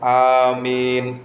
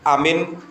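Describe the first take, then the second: First: Both the first and second vowels are long. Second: Both the first and second vowels are short. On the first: Grant our prayer, O God. "kalau amin itu alifnya dibaca panjang, mimnya dibaca panjang" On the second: Safe. "Kalau dibaca pendek semua, alifnya dibaca pendek, mimnya dibaca pendek"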